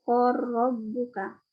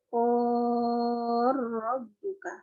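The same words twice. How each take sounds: First: The long vowel is held short. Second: The long vowel is held long. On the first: "untuk qasarnya" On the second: "Yang tulnya"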